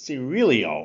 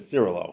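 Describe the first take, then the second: First: The name ends with a 'lyo' sound. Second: The name ends with a plain 'lo' sound. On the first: The speaker calls it right. "It's Cirilio or something like that" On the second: The speaker calls it wrong. "At first I said Cirilo"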